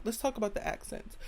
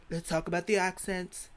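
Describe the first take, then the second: First: Said in the usual way. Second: Mock British accent, lightly put on; bad British accent. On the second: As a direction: do a horrible British impression. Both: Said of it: "That was a horrible impression".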